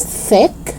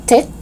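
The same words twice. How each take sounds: First: "thick" with soft TH; tongue out to start "thick"; TH sound. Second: "tick" with hard T; crisp T opening "tick". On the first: Teacher correcting learners, "thick" with clear TH. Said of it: "but it's thick". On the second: Teacher showing learners the mistake, "tick" with hard T. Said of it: "not tick". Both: Shown as a demonstration.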